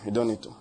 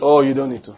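First: Quiet. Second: Said in the usual way. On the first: Shown as a demonstration. Preacher repeating his point to the congregation, hushed. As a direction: drop it low and soft, lower and softer.

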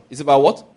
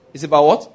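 First: Louder rising what for the crowd; pushing the crowd to answer; call to the congregation. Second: What pushed up louder; insisting the crowd answer; louder repeated call. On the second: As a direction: press harder on what. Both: Shown as a demonstration.

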